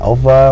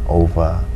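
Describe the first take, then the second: First: The word ends with an r sound. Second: The word ends with an uh sound. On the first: The speaker calls it wrong. "they say over" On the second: The speaker calls it right. "it's O V A. And you have to pronounce it in a slang like over"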